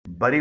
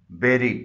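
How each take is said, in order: First: बरी with first vowel as in "burr"; common mispronunciation. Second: बेरी with e, like "berry"; correct pronunciation. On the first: Teacher showing learners the mistake, बरी as bur-ee. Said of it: "आमतौर पर लोग इसे बरी बोलते". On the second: Teacher modelling for learners, बेरी like berry. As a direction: say बेरी as BEH-ree. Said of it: "इसकी दुरुस्त pronunciation है". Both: Shown as a demonstration.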